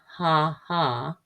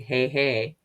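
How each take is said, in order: First: The vowel does not sound like the letter name. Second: The vowel sounds like the letter name A. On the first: The speaker calls it right. "And ha ha" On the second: The speaker calls it wrong. "we don't say hey hey"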